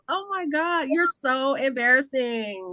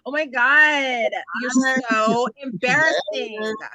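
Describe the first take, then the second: First: It is said in her normal voice. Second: It is said in a California voice.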